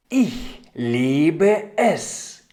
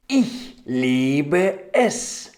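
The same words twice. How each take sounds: The two takes are said the same way.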